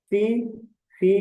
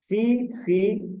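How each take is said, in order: First: Said in the usual way. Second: फी, फी stretched very slowly, each syllable held; teacher drilling फी, फी slowly for students to copy; slow drawn-out drill. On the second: Shown as a demonstration. Teacher drilling students, very slow फी, फी. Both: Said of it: "teacher drills Greek letters slowly".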